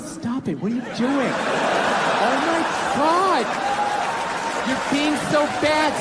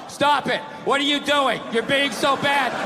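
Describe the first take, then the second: First: It is said in a playful, flirty way. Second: It is read flatly, without any playfulness.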